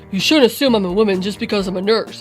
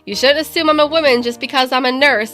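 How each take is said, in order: First: It is said in a put-on deep voice. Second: It is said in the speaker's normal voice.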